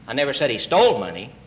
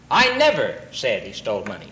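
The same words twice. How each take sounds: First: The stress falls on the word he. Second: The stress falls on the word never.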